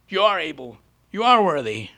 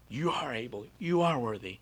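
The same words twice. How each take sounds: First: The words are said loudly, almost yelled. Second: The words are said fairly softly. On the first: The speaker calls it right. "yell at him louder" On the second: The speaker calls it wrong. "So I just kind of like"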